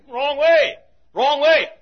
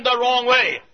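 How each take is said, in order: First: Higher, louder warning call; yelled warning. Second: Said in the usual way. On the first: Retold or imitated. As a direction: call out to the runner he's going the wrong way.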